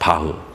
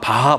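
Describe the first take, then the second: First: The name ends with a weak 'heu' sound. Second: The name ends with a full 'ha' syllable. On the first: The speaker calls it right. "바흐라고 발음하는 게 맞더라고요" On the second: The speaker calls it wrong. "저는 뭐 옛날에 그냥 바, 바하, 바하 그랬는데"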